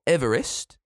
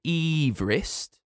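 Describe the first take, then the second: First: Said in the usual way. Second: Everest as a slow EEV-rist; original pronunciation. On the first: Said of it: "not Everest". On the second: Shown as a demonstration. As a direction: stretch the first vowel of Everest to EE. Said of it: "He pronounced his name Everest".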